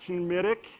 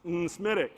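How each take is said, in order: First: The word begins with a sh sound. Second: The word begins with an en sound. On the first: "there's no S H in there. It's not Schmitic" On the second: "The N is silent, ... it's not N-Smitic"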